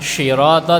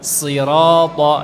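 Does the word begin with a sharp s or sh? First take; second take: sh; sharp s. First: The word begins with a soft sh sound. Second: The word begins with a sharp s sound. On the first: The speaker calls it wrong. "bukan syirata" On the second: The speaker calls it right. "tapi sirata"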